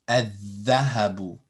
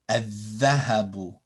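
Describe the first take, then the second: Both takes have the same delivery.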